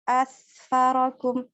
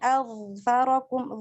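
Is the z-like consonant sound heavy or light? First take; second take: light; heavy. First: The consonant is light, like a plain s. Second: The z-like consonant is heavy and thick. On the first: The speaker calls it wrong. "Kalau nggak ditebalin dia akan seperti asfarakum" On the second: The speaker calls it right. "vo di situ tebal ya"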